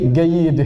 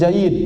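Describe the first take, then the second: First: It starts with a hard g, Egyptian style. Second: It starts with a j sound, standard Arabic.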